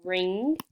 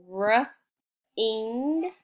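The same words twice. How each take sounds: First: Said in the usual way. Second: R-ing split into r and ing; sounded out. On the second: Shown as a demonstration. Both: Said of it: "We have".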